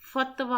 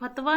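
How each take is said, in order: First: It starts with an f sound. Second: It starts with an aspirated p sound. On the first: The speaker calls it right. "फ की बजाय हम उसको क्या बोलेंगे? फ़ बोलेंगे" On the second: The speaker calls it wrong. "ये फतवा नहीं होता है"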